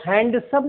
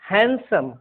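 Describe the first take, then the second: First: The d sound is pronounced in the word. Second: The d sound is left out of the word. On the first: The speaker calls it wrong. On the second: The speaker calls it right.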